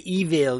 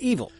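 First: The second vowel is clearly pronounced. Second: The second vowel is reduced or dropped. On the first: The speaker sounds villainous. "the good guys never say evil" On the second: The speaker sounds ordinary. "They say evil"

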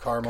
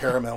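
First: The word is said with a non-Australian pronunciation. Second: The word is said with an Australian pronunciation. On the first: "instead of caramel" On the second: "I'm sounding very Australian when I say caramel"

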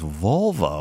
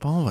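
First: The word begins with a V sound. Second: The word begins with a B sound. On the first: The speaker calls it right. "it's Volvo" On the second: The speaker calls it wrong. "it's not Bobo"

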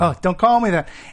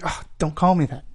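First: It is said loudest of all. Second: It is said fairly quietly.

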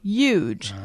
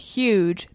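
First: The word starts without any h sound. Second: The word starts with a clear h sound. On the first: The speaker calls it wrong. "make the letter H silent" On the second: The speaker calls it right. "Instead of saying huge"

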